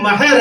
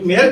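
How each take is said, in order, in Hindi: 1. पहला स्वर खुला 'a' वाला स्वर है। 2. पहला स्वर 'e' वाला स्वर है। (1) "मीम पे फतहे के साथ" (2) "मेहर अरबी है ही नहीं है, मैं पर्शियन है"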